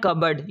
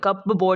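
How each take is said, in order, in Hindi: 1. बीच वाला p silent है। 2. बीच वाला p बोला जाता है। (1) "इसको पढ़ना है कबर्ड" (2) "कप बोर्ड नहीं पढ़ना"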